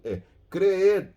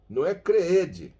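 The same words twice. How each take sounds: First: "creed" ending on the ee with the d swallowed; silent final d. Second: "creede" with the d said clearly; wrong pronunciation. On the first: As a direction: cut "creed" off right after the ee. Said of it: "Há um D mudo ao final". ("creed" com d mudo) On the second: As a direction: overstress the d in "creede". ("creede" com d pronunciado, errado) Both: Shown as a demonstration.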